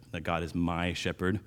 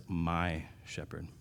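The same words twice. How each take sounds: First: Said in the usual way. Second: "My shepherd" slow and soft, leaning on "My"; stress on my. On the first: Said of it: "the psalmist says, "My shepherd". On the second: Shown as a demonstration. Preacher to congregation, stressing "My" in "My shepherd" slowly and softly. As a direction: linger on "My" in "My shepherd". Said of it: "the only time ... the psalmist says".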